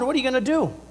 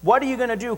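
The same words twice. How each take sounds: First: It sounds eager and excited. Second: It sounds challenging and demanding. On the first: The asker expects God to act. The speaker calls it right. "Because I'm excited to know he's doing something" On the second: The asker doubts and confronts God. The speaker calls it wrong. "questioning God"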